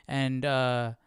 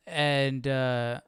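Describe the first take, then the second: No difference in how they are said.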